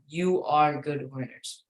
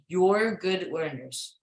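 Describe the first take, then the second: First: 'You are' is said as two full words. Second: 'You are' is squeezed into one syllable. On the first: "if you want to break it down, you are good learners" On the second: "you say you're good learners"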